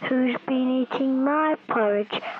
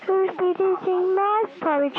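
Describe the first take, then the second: First: It is said in a big, heavy voice. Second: It is said in a very light voice. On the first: A large bear is speaking. "they said in a big voice" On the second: A small bear is speaking. "who said in a very light voice"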